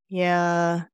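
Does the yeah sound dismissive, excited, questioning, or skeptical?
skeptical. It is said with doubt. The speaker doubts what was said. "3 was skeptical"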